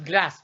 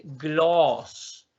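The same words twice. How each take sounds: First: "glass" with a short, quick a; short vowel. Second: "gloss" with a long, drawn-out vowel. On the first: Teacher showing what it is not, short "glass". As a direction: keep "glass" brief. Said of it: "No es glass". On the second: Teacher correcting glass, long-vowel "gloss". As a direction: hold the vowel of "gloss" slowly. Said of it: "sino que es gloss". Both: Shown as a demonstration.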